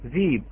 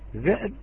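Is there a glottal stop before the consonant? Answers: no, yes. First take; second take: no; yes. First: A long vowel replaces the glottal stop. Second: A glottal stop closes the first syllable. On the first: This is the reading of Warsh. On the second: This is the word with its hamza kept.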